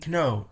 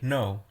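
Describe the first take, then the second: First: "kno" with the K pronounced before the N; K sounded. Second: "no" starting straight on N, the K silent. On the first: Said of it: "The K in no is". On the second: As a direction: say "no" with no K sound. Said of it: "so it pronounced like no". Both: Shown as a demonstration.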